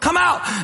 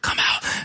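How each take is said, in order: First: The words are spoken at normal volume. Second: The words are whispered quietly. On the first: "Maybe we just say it normally" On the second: "We whisper"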